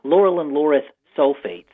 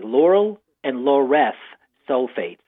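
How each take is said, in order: First: It is said quickly. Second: It is said slowly.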